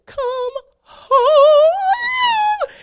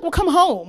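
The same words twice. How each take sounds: First: Loud, high mock wail stretched out; crying. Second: Imitated mom, simple untearful answer; matter-of-fact. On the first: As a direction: bawl it with the last word drawn out. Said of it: "crying, and I'm in traffic". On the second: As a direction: toss it back as the obvious solution. Mom's matter-of-fact answer to wailing.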